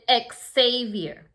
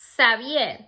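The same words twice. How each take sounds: First: The name is said the English way. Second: The name is said the Spanish way, X like s. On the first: "But in English, people pronounce it" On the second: "In Spanish, we say this name Xavier because the X has a s sound"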